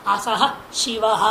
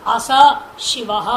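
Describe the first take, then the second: First: असह शिवः with a clear breathy h after अस; with visarga. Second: अस शिवः said as plain "as", no h sound after अस; without visarga. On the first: Teacher showing students the correct form, असह शिवः with audible visarga. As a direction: sound the visarga: असह, then शिवः slowly. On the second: Teacher showing students the wrong form, अस शिवः with no visarga. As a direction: drop the visarga: अस शिवः with a bare s. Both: Shown as a demonstration. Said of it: "उच्चारण में देखिए कितना फर्क हो जाता है".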